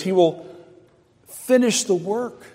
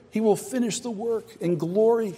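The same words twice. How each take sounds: First: A preacher's lingering proclamation; drawn-out emphasis. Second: "He will finish the work in glory" said softer, falling on "glory"; a quiet echo of the promise; softer repeat. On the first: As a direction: finish the work stretched slow and high. Preacher drawing out a promise. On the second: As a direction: let it settle, hushed. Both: Acted.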